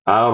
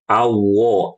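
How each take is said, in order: First: The lips are barely raised, keeping r clearly heard. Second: The lips are pushed out, making r sound like w. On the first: The speaker calls it right. "kalau naik-naik sedikit, misalkan ar, ar, ar, itu tidak masalah" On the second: The speaker calls it wrong. "Karena khawatir huruf ro-nya berubah jadi huruf w atau waw. Awo, awo, ini salah"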